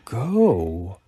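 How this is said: It sounds impatient, as if asking why you aren't going.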